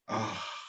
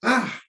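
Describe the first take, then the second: First: It is a relaxed sigh on an out-breath. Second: It is a sharp gasp on an in-breath.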